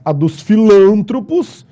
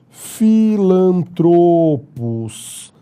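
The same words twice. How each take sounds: First: "filântropos" stressed on -lân-, read as written; wrong stress read out. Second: "filantropos" stressed on -tro-, slowly; correct pronunciation, drawn out. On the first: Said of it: "isso está errado". (leitura errada: "filântropos" com tônica em lân) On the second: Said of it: "A forma correta é". ("filantropos" devagar, tônica em tro) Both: Shown as a demonstration.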